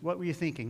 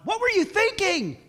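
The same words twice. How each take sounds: First: It is asked in a gentle, curious tone. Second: It is asked in an accusing, exasperated tone. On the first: The asker sincerely wants to know the other's thoughts. The speaker calls it right. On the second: The asker is blaming the other for a foolish choice. The speaker calls it wrong.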